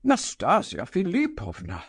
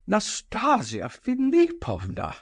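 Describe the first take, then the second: First: Coaxing her name with a touch of agitation; persuasive, agitated. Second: High, trembling cry of her name; frightened older gentleman pleading; quaking cry. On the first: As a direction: plead with her, urgent but persuasive. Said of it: "persuasive but agitated tones". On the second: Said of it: "cried Totski in a quaking voice". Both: A narrator's reading.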